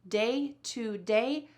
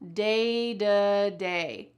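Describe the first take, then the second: First: The middle word is a full 'to'. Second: The middle word is reduced to 'duh'.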